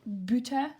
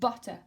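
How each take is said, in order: First: The first vowel is not an 'uh' sound. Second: The first vowel is an 'uh' sound. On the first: The speaker calls it wrong. "in English you do not say butter" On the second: The speaker calls it right. "This is the sound uh"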